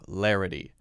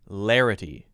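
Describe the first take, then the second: First: The T is pronounced as a clear T. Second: The T sounds like a light, soft D. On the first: "larity is a clear T sound" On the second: "Larity is sort of like a light D sound"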